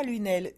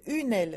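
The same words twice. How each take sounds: First: Lunel, one run-together word with an L. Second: Une aile, two words, a clear break between une and aile. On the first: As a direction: say Lunel as the town name, l-y-n-ɛ-l. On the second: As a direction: stress une, then aile apart. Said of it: "pas Lunel". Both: Shown as a demonstration.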